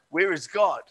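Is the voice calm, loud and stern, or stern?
calm. It is asked in a calm, plain voice.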